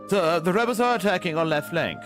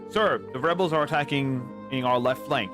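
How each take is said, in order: First: It is said in a British accent. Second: It is said in an American accent. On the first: "you say ... It's a bit of a refinement, a bit longer vowels" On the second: "So instead of saying"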